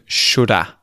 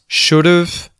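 First: 'Have' shrinks to a weak 'uh' sound after 'should'. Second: 'Have' shrinks to a short 've' joined to 'should'. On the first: "into its forms should've and shoulda" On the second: "contracting should have into its forms should've"

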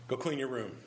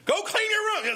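First: It is said calmly. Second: It is said angrily.

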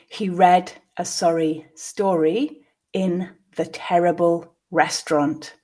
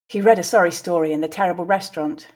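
First: The sentence is said slowly. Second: The sentence is said at natural speed. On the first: "I will read it once slowly" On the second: "at a more natural pace"

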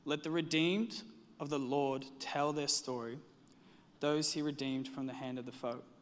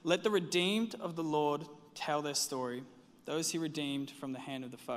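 First: It is read at a slower pace. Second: It is read at a quicker pace.

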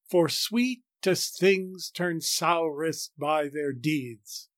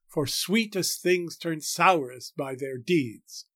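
First: The word 'by' is stressed heavily. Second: The word 'by' is stressed lightly. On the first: The line is read as regular iambic metre with five stresses. "If I exaggerate the stressed syllables, the lines will sound like this" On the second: The line is read with four heavy stresses and one light one. "Or we might read it as four heavy stresses and one light stress on by"

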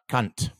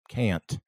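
First: The vowel is a single simple sound. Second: The vowel glides as a diphthong. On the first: The speaker calls it wrong. "a simple vowel in the A there is not how we say that" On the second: The speaker calls it right. "there's a diphthong in there"

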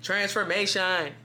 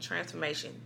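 First: The word is said in a full, audible voice. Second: The word is said in a soft whisper. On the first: This is not how the message was heard. The speaker calls it wrong. "it's not like a voice like" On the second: This is how the message was heard. The speaker calls it right. "It's like literally just a whisper like"

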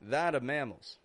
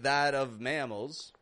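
First: The word 'of' is reduced to a schwa. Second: The word 'of' is said fully with its V. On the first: The speech sounds casual and natural. "we can make that reduction" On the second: The speech sounds more formal. "you could pronounce this a little bit more formally"

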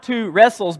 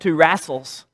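First: The vowel in the second word sounds like 'reh'. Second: The vowel in the second word sounds like 'rah'. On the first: This is the standard pronunciation. "we got not two wrestles" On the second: This imitates how someone else pronounced it. "but two wrassles"

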